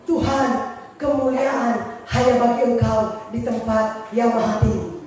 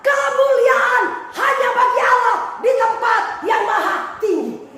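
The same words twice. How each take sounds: First: Low, slow, humble murmur to God; humble prayer. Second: Shouted high and slow, like a triumphant declaration; proud proclamation. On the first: Preacher shows how he prays, in a humble low voice. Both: Shown as a demonstration. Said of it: "kalau saya berdoa".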